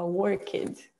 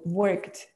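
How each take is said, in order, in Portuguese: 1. A terminação é sonorizada como uma sílaba separada. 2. A terminação é um t simples, uma sílaba só.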